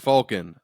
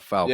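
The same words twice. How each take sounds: First: The first syllable sounds like 'Falk'. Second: The first syllable does not sound like 'Falk'. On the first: The speaker calls it right. "It's Falcon" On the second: The speaker calls it wrong. "not Falcon"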